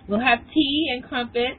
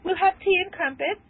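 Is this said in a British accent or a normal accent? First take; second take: normal; British. First: It is said in the speaker's normal accent. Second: It is said in a put-on British accent.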